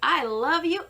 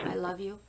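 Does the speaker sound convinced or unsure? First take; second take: convinced; unsure. First: It sounds warm, energetic and convinced. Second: It sounds hesitant and unconvincing. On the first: The person truly believes it. The speaker calls it right. "that's believable" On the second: The person does not really believe it. The speaker calls it wrong. "That's not very convincing"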